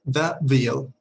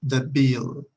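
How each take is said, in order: First: The bill, stress on The; model phrase. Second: The bill with a firm L at the end of bill; model phrase. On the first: Teacher modeling The bill. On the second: Teacher repeating The bill after the L lesson. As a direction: say The bill, hard L in bill. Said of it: "Suena como L ... una L un poquito dura". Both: Shown as a demonstration.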